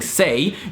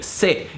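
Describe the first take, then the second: First: The vowel glides as a diphthong. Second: The vowel is short and pure. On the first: "instead of saying" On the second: "you would say"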